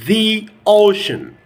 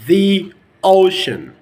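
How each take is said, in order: Both takes have the same delivery.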